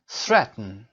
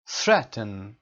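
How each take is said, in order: Both takes have the same delivery.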